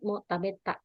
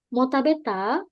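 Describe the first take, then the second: First: The voice falls at the end. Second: The voice rises at the end. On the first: It states that the speaker has already eaten. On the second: It asks whether the listener has already eaten. "Tinggal mainin intonasinya aja. ... Sudah makan?"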